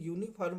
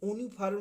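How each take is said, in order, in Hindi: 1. यह शब्द 'yoo' ध्वनि से शुरू होता है। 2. यह शब्द सादे 'uh' स्वर से शुरू होता है। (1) "यूनिफॉर्म बोलते हैं, या से आवाज शुरू होती है" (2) "यूनिफॉर्म ना बोल करके"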